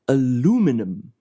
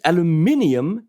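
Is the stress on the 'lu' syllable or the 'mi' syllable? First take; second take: lu; mi. First: The stress falls on the 'lu' syllable. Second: The stress falls on the 'mi' syllable. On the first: The speaker calls it wrong. "in American, it's aluminum on the U" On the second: The speaker calls it right. "in English, it's aluminium, so the stress is on the I"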